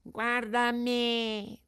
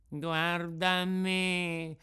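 First: Very slow and much higher, whining; the cat echoing the fox, pitched up high; the cat copying the fox in a high, whiny voice. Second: Very slow and mournful, a touch higher; the sly fox, drawing out a sad lament; the fox pleading in a slow, put-on sorrowful voice. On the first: Acted. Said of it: "disse il gatto". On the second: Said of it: "disse la volpe".

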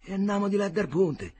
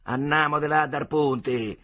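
First: Resigned echo. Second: Slow, firm command; bossy order. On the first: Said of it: "disse Agnolo". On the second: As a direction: stare him down and decide. Bully takes the oars. (ordine prepotente) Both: Acted.

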